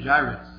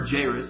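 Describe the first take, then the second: First: Jairus with a long I in the first syllable; Jairus, first syllable rhyming with "eye"; pronounced JY-rus. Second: Jairus with a long A in the first syllable; Jairus, first syllable rhyming with "day"; pronounced JAY-rus. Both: Shown as a demonstration. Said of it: "depending on how you pronounce it".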